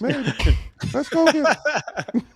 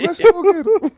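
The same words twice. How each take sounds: First: Slow, high Southern twang; southern accent. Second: Put-on southern accent. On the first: Pretend. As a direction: drawl it out like a Texan. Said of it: "I like your southern accent". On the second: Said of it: "Do that again".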